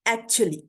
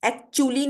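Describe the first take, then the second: First: Actually as ak-chuh-lee; correct pronunciation. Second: Actually as ak-choo-lee; wrong pronunciation. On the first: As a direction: weaken the middle vowel of actually. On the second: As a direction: say a full oo in actually. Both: Shown as a demonstration. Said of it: "actually नहीं होता".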